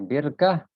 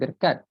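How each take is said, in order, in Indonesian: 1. Kata itu berakhir dengan bunyi h. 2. Kata itu berakhir dengan bunyi t. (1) "birkah ha" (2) "bukan birkat"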